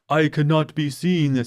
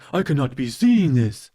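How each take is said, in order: First: It is said flatly, with little energy. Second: It is said with more energy and force. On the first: The line is delivered without feeling. The speaker calls it wrong. "It was the delivery" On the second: The line is delivered with feeling. The speaker calls it right. "add a little oomph to it"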